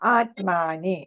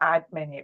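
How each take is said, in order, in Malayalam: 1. രണ്ടാം അക്ഷരത്തിലെ സ്വരം ദീർഘമാണ്. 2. രണ്ടാം അക്ഷരത്തിലെ സ്വരം ഹ്രസ്വമാണ്. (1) "ആത്മാനിയില്ല" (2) "ആത്മനി എന്നാണ്"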